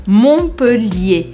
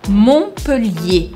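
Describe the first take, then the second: First: The T and R sounds are silent. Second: The T and R sounds are silent.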